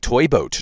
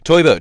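First: It is said slowly and mechanically, word by word. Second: It is said quickly and naturally, running together. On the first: The person avoids the tongue twister's difficulty. The speaker calls it wrong. "Don't say it like fucking speak and spell" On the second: The tongue twister is attempted properly. The speaker calls it right. "Say it like you"

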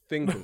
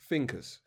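First: The word begins with a 'th' sound. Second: The word begins with an 'f' sound. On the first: "How did I say it? Was that good?" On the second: "I'm going to pronounce it like I truly would, because to be honest, I find it really hard with the THs"

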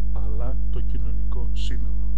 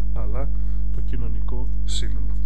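The two takes are said the same way.

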